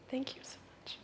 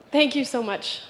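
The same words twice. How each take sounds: First: Breathless whispered thanks. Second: Said in the usual way. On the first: Real, not acted. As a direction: whisper it, barely voiced. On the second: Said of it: "thanking the audience".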